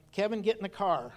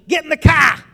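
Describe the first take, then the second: First: Said in the usual way. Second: High, very loud yell with a Massachusetts twang; mom's warning yell. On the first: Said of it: "I remember her saying something like". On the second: Retold or imitated. Mom calling the kids to the car, loud warning. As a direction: yell it like the last warning before a spanking. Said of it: "her voice would change. And when it sounded funny".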